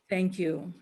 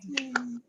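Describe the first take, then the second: First: Said in the usual way. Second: Breathy whispered thank you. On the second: Real, not acted. Host whispering thanks to the audience after singing. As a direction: murmur it under the applause.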